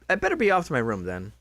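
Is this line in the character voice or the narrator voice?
character. It is said in a distinct character's voice. The speaker calls it right.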